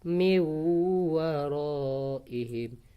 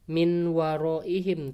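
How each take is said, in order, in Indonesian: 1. Huruf n menyatu dengan w sengau yang dobel. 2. Huruf n dibaca jelas sebelum w. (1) "seolah-olah ada tasydid" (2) "nggak boleh dibaca min waraihim"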